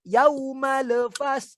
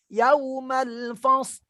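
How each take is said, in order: First: The L sound starts the second word. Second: The L sound ends the first word. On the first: The speaker calls it wrong. "jangan sampai kita terbaca yauma lefas" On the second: The speaker calls it right. "tapi harus yaumal fas"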